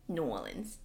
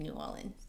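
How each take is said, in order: First: "New Orleans" with no r, like "N'awlins"; local-style New Orleans. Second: Said in the usual way. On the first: Shown as a demonstration. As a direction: correct yourself to "New Orleans" said as "Naw-lins". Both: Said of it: "I like to say New Orleans".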